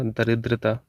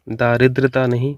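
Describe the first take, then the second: First: दरिद्रता with short first vowel, softer da-ridrata; correct form. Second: दारिद्रता with a long first vowel, daa-ridrata; wrong form. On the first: Teacher giving the correct spelling, short da in दरिद्रता. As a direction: keep the opening da of दरिद्रता short. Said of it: "दा छोटा रहेगा". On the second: Teacher rejecting a misspelling, long daa in दारिद्रता. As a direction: stretch the opening aa of दारिद्रता. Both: Shown as a demonstration.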